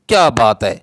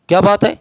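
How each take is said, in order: First: It is said as an admiring exclamation. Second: It is said as an asking question. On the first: The speaker is praising a praiseworthy deed. "ये काबिल सताइश अमल पे उसको कहा जाता है, तहसीन के तौर पर" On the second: The speaker is asking what the matter is. "ये सवालिया इस्तिफाम है"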